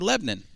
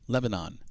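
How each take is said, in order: First: The name is said the way locals say it. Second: The name is said the way outsiders say it. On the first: The speaker is from the town. "if you're from Lebanon, you don't say Lebanon. You say Lebanon" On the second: The speaker is not from the town. "if you're not from Lebanon, you say Lebanon"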